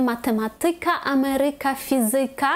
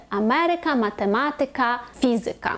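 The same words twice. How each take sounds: First: МатематИка, амерИка, фізИка; wrong penultimate stress. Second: АМЕрика, матеМАтика, ФІзика; third-from-last stress. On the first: Teacher showing the mistaken form, stress on second-last. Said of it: "ми кажемо не". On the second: Teacher giving the correct form, stress third from end. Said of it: "правильно буде". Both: Shown as a demonstration.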